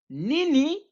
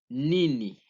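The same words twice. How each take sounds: First: It is said with raised, higher pitch. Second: It is said with ordinary, unraised pitch. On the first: It is an exclamation of surprise. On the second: It is the plain question word.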